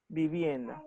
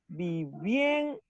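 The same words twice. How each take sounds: First: Said in the usual way. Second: "vivienda" very slowly, syllable by syllable, with "vien" held long; stress on VIEN. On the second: Shown as a demonstration. Teacher showing the accented syllable, slow drawn-out VIEN in "vivienda". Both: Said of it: "la sílaba más fuerte sería bien".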